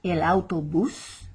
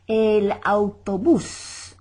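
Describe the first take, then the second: First: Said in the usual way. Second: El autobús slow, ending on a stressed bús. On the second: Shown as a demonstration. Teacher shows students the accent on autobús, slow and stressed. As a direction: lean on the last syllable bús. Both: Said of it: "accent mark to stress the bus".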